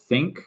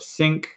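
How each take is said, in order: First: The word begins with a th sound. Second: The word begins with an s sound. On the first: The speaker calls it right. "the T H sound, which you usually have in thank or think" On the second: The speaker calls it wrong. "Usually this gets uh, replaced with S"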